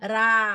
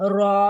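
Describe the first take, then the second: First: The r is said light, with a thin sound. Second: The r is said heavy, with a full mouth.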